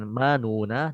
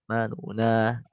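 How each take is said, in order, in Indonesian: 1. Vokal setelah n pertama bersuara penuh. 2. Vokal setelah n pertama dipendekkan. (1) "bukan manuna" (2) "tapi manuna; dibaca dia nggak sempurna nunya"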